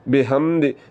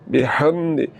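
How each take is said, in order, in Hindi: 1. h एक नरम, सादी साँस है। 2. h खरखरा है, गले के बीच वाले हिस्से से। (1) "ये गलत है, ऐसे नहीं पढ़ना" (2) "हलक के दरमियान वाले हिस्से से आवाज़ को निकालना है"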